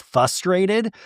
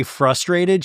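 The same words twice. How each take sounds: First: "fustrated" without the first R; missing first R. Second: Said in the usual way. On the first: Shown as a demonstration. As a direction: say "fustrated", dropping the R after the F. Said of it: "She says fustrated". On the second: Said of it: "She can't say frustrated".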